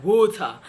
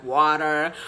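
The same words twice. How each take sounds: First: British "water" with the R unrolled; non-rhotic British pronunciation of "water"; British accent. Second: American "water" with the R rolled; American accent. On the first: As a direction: say "water" as a Brit would. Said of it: "the British way of pronouncing words". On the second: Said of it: "the American way of pronouncing words". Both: Shown as a demonstration.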